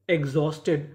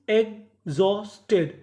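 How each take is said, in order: First: Said in the usual way. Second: exhausted split slowly as egg-Jos-Ted; slow teaching breakdown of exhausted; syllable by syllable. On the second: Shown as a demonstration. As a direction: pause between the three chunks of exhausted. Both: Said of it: "टुकड़ों में तोड़ तोड़ के पढ़ें".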